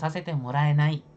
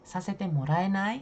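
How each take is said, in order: First: The pitch does not rise at the end. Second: The pitch rises at the end. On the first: The speaker calls it wrong. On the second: The speaker calls it right. "intonasinya itu naik di terakhir"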